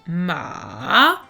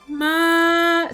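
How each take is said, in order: First: The pitch dips down, then rises again. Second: The pitch stays high and level. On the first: It means horse. "on part du haut, on va vers le bas et ensuite on revient vers le haut" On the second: It means mother. "c'est aigu et ça ne se modifie pas"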